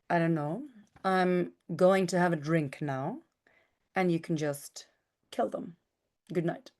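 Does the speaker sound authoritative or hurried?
authoritative. It sounds calm, weighty and authoritative.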